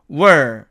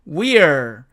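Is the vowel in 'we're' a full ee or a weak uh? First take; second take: weak uh; full ee. First: The vowel is weakened to a short uh. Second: The vowel is a full ee sound. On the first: "이 i가 또 약해지면 또 어가 됩니다" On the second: "we are를 줄이면은 we're"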